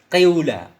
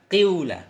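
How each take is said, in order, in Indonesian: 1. Vokal pertama adalah i yang dicampur u. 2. Vokal pertama adalah i yang dicampur u.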